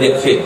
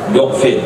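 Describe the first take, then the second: First: The first vowel is i. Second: The first vowel is u. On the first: The speaker calls it wrong. "tak boleh" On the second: The speaker calls it right.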